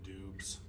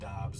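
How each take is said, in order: First: The name has an 'oo' vowel, like Dubes. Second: The name has an 'ah' vowel, like Dobbs. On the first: This is a personal nickname-style pronunciation. "I call him Dubes" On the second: This is the accepted pronunciation of the name. "I know it's pronounced like Dobbs"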